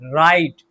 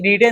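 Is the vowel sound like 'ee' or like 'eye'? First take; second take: eye; ee. First: The vowel sounds like 'eye'. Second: The vowel sounds like 'ee'. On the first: The speaker calls it right. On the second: The speaker calls it wrong.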